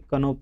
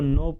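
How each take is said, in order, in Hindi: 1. यह शब्द n से पहले k की आवाज़ से शुरू होता है। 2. यह शब्द n की आवाज़ से शुरू होता है, k से नहीं। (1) "ना कि कनो पढ़ते हैं" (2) "इसको नो पढ़ते हैं"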